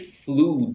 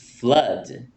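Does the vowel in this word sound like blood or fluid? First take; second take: fluid; blood. First: The vowel sounds like the one in fluid. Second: The vowel sounds like the one in blood. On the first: The speaker calls it wrong. "We don't say flood" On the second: The speaker calls it right. "It's flood. ... It's like blood"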